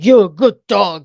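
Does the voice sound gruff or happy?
gruff. It is said in a gruff voice.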